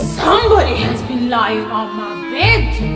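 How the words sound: A deep, gruff voice of a huge bear.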